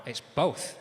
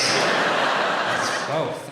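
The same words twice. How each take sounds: First: Said in the usual way. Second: Whispered both through laughter; laughing whisper. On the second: Shown as a demonstration.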